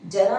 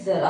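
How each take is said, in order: First: It begins with a j sound. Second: It begins with a z sound. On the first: The speaker calls it wrong. "जरा नहीं होता है" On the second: The speaker calls it right. "ज़रा होता है"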